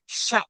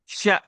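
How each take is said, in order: First: The vowel is cut off with a sharp catch. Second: The vowel is cut off with a sharp catch.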